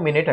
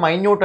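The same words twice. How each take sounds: First: మినిట్ with short i sounds; మినిట్ as "min-it". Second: మైన్యూట్ with a long "my" opening; మైన్యూట్ as "my-nyoot". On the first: Teacher naming the other reading, మినిట్ said "min-it". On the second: Teacher naming one reading, మైన్యూట్ said "my-nyoot". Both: Shown as a demonstration. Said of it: "pronunciation different".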